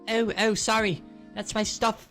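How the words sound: It is said in a different character voice.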